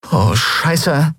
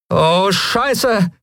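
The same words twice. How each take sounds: First: Higher-pitched, understated dismay; mildly alarmed swearing; dismayed oath. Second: High-pitched, drawn-out dismay; oh-no swearing, pitched well up; alarmed oath. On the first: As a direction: let the curse out as danger dawns. Both women see danger, same oath. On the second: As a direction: curse as the attackers come at you. Lien echoes oath as attackers charge. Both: Acted.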